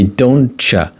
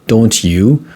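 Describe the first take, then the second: First: The T and Y merge into a CH sound. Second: The T and Y sounds stay separate. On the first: "we can pronounce them like ch sound" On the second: "it should be pronounced like don't ya, don't you"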